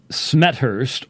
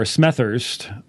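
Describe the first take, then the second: First: Smethurst said as Smet-hurst; first pronunciation option. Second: Smethurst said as Smeth-urst; second pronunciation option. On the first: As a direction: say Smethurst with a hard T, then H. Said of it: "so it could be either one". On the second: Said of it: "haven't heard your last name pronounced before". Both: Shown as a demonstration.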